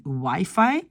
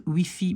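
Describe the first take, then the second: First: Wifi said as why-fye; English-style wifi. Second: Wifi said as wee-fee; French-style wifi. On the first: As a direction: say wifi with eye in both syllables. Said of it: "souvent on dit wifi". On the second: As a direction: say wifi with ee in both syllables. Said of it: "on peut dire wifi". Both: Shown as a demonstration.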